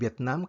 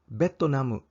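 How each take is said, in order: First: The name is said with its ordinary pronunciation. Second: The name is said with Japanese pronunciation.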